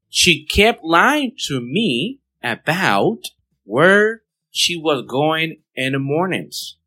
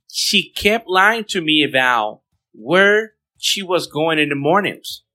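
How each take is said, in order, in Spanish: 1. La frase se dice a un ritmo más lento y cuidadoso. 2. La frase se dice a un ritmo normal, un poco más rápido.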